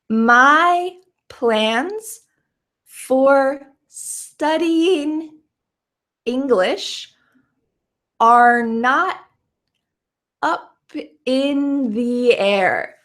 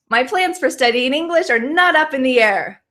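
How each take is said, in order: First: The sentence is spoken slowly, word by word. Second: The sentence is spoken very fast. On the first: "let's say this slowly" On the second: "Really fast?"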